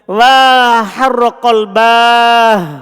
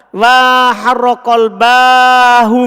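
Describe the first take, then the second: First: The final h has no vowel after it. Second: The final h is followed by a u vowel. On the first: The h marks a stop at the end. "Seharusnya kan sukun" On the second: The h is treated like a pronoun. "boleh antum dhamma"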